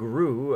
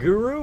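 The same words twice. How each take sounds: First: No vowel sounds between the G and R. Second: A full vowel sounds between the G and R. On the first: "like there's no first U" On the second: "I don't say it Guru"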